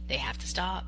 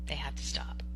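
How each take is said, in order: First: Said in the usual way. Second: Whispered repeat. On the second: Real, not acted. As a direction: whisper "They have to stop" unvoiced and hushed.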